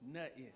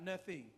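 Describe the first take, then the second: First: The word is clipped, like notin, without th or ng. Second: The word is said in full, with th and ng. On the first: The speaker calls it right. "That's how young folks say nothing. ... N-O-T-I-N" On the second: The speaker calls it wrong. "Not nothing"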